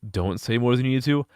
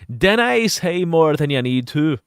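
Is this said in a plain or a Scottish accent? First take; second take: plain; Scottish. First: It is said in a plain, unaccented voice. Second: It is said in a Scottish accent. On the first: "I know this should say don't say more than you need to" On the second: "I'm reading this as like fucking like Scotch"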